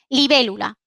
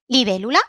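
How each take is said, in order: First: It is said with a neutral statement tune. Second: It is said with a questioning tune. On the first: It states what something is. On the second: It asks whether something is so.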